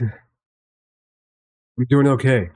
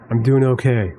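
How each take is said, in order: First: Very slow, dragged-out words; slow drawn-out. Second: Said in the usual way. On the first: Real, not acted. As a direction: stretch it out wearily. Repeats how he's doing, drawn out.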